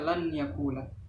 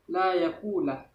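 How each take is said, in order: First: The n is pronounced clearly before the y. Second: The n merges into the following y sound. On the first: The speaker calls it wrong. "tidak boleh membaca lan yakulah" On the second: The speaker calls it right. "Membacanya harus la yakulah"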